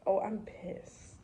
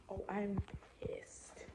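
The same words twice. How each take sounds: First: Said in the usual way. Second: Hushed so coworkers won't hear; whispered pissed. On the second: Shown as a demonstration.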